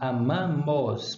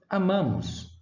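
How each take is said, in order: First: The final vowel is pronounced as a full 'o'. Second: The final vowel is pronounced as a reduced 'u'. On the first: "nós não dizemos" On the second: "mas dizemos"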